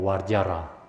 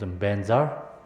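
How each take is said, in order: First: It begins with a v sound and ends in ra. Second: It begins with a b sound and ends in za. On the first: This is the Sanskrit way of saying it. "but Sanskrit is called Varjara" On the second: This is the Tibetan way of saying it. "Tibetan pronunciation is Benza"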